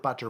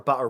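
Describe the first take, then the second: First: The middle T is made with the tongue tip. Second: The middle T is replaced by a glottal stop. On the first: "saying the T with your tongue" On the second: "you'd say them down with your glottis"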